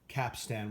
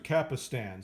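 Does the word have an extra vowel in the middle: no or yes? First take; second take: no; yes. First: It is said with two syllables, no middle vowel. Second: It is said with an extra middle vowel sound. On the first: "Capstan without the I" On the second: "I've always pronounced it with the I"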